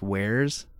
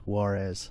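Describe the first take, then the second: First: It sounds like the one-syllable word 'wares'. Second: It sounds like the two-syllable name 'Juarez'. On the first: This is how the name was probably meant to be said. "I think it's probably supposed to be pronounced wares" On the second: This is how the speaker actually says the name. "I pronounce it Juarez"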